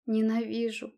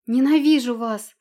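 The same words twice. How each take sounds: First: Through gritted teeth. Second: Ненавижу вас shouted loud and high; Ненавижу full-voiced yell. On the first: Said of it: "процедила она сквозь сжатые зубы". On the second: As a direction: scream Ненавижу at them. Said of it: "закричала она". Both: A narrator's reading.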